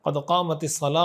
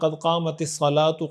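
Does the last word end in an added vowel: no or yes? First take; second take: no; yes. First: The final word ends without any vowel. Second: The final word ends with an added vowel. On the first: The speaker calls it right. "जो सही और तरीक़ा है" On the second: The speaker calls it wrong. "ये भी ठीक तरीक़ा नहीं है"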